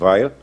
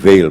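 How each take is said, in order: First: The name is pronounced without the French sound. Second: The name is pronounced the French way. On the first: "mas eu me recuso a fazer isso" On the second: "os franceses pronunciam Weil"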